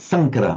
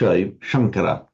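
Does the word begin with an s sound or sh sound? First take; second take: s sound; sh sound. First: The word begins with a plain s sound. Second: The word begins with a sh sound. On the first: The speaker calls it right. "San- Sankara, just literally" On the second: The speaker calls it wrong. "you pronounce this as a sh"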